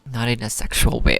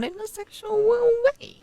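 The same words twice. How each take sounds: First: Said in the usual way. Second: Mock disclaimer in a squeal; silly squeaky voice. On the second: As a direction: climb into a comic falsetto. Joking repeat of own disclaimer.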